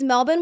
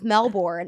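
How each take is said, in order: First: It is said in an Australian accent. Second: It is said in an American accent. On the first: This is how locals say it. The speaker calls it right. "with an Australian accent" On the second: Locals did not understand it. The speaker calls it wrong. "I kept being like Melbourne"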